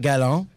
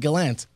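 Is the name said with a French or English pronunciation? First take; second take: French; English. First: The name is said with a French pronunciation. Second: The name is said with an English pronunciation. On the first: This is how the name is said where he comes from. "coming from the eastern part of Canada, his name is Gérard Gallant" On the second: This is how most people say the name. "So they call him Gallant"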